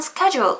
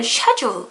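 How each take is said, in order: First: The word is said in an American accent. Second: The word is said in a British accent. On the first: "미국식으로는 스케줄 이렇게 얘기하는데" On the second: "영국식으로는 schedule 이렇게 얘기를 한다는 거예요"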